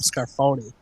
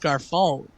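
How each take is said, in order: First: The name ends with an added 'ee' sound. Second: The name ends without an added 'ee' sound. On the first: The speaker calls it wrong. "They just kept calling him Scarfoni" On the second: The speaker calls it right. "no, no, no, it's Scarfone. Like you're saying it wrong"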